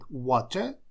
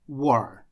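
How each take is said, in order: First: The T sound in the middle is clearly pronounced. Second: The T sound in the middle is dropped. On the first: "Британцы говорят water, то есть букву T обязательно произносят" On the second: "Американцы ее теряют и говорят war"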